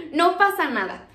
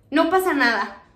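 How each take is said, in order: First: Said in the usual way. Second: Chuckling as she calms her friend; laughing reassurance. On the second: Retold or imitated. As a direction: say it through a light laugh. (riendo, tranquilizando a Oli)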